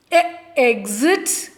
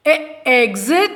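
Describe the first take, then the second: First: Slow, drawn-out E, exit; slow sounding out. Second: Said in the usual way. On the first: Shown as a demonstration. Teacher sounding out the word for young pupils, slow. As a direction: stretch out "E, exit" so each sound is clear.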